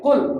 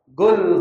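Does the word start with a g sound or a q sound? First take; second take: q sound; g sound. First: The word starts with a deep q sound. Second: The word starts with a g sound. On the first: The speaker calls it right. "Harusnya qul" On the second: The speaker calls it wrong. "Kalau dia pengaruh masih Hadramautnya"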